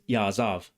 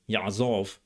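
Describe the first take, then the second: First: A modern accent with a glottal stop or silence. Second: A biblical accent with a throaty pharyngeal consonant. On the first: "in the dominant accent" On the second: "in the Tiberian accent of biblical Hebrew"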